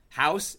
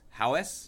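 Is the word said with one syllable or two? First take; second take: one; two. First: It is said plainly as one syllable. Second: It is drawn out into two syllables. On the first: "she says the word house" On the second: "it becomes house ... There's a second syllable in there now"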